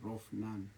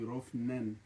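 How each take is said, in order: First: The name does not end with a 'nen' sound. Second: The name ends with a 'nen' sound. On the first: This is how the father says the name. "It's only my dad that calls me Rofnan" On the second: This is how the mother says the name. "My mom calls me Rofnen with a nen"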